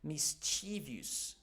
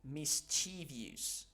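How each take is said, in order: First: It is said with an American pronunciation. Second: The same.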